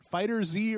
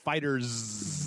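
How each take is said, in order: First: The name ends with a separate 'zee' sound. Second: The name ends with a plain 's' sound. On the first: "or is it Fighter Z" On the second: "or is it Fighters?"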